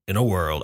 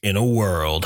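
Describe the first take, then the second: First: Low, softer trailer narrator voice; movie trailer voice. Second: Deep, dramatic trailer narrator; movie trailer voice. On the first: Shown as a demonstration. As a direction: intone it like a blockbuster trailer. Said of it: "in my, um, movie trailer voice". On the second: Pretend. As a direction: announce it like an epic film trailer. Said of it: "movie trailer voice".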